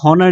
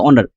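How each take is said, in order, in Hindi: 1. शब्द की शुरुआत में h की ध्वनि है। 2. शब्द की शुरुआत में स्वर की ध्वनि है। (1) "हम लोग इसको हॉनर नहीं पढ़ते हैं" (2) "एच साइलेंट यहाँ पर है"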